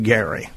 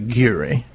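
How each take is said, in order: First: The first vowel sounds like 'air'. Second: The first vowel sounds like 'ear'. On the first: This is how the family said the name. "They pronounced it Gary" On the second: This is how some other people say the name. "Some say Geary"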